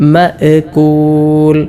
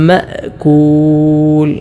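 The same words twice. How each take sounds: First: The glottal stop ends with a bouncing echo. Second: The glottal stop ends plainly without an echo. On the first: The speaker calls it wrong. "ഹംസയിൽ കലക്കല കൊടുത്തുകൊണ്ട് ചിലരൊക്കെ ഓതാറുണ്ട്" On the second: The speaker calls it right. "അങ്ങനെയല്ല ഓതേണ്ടത്"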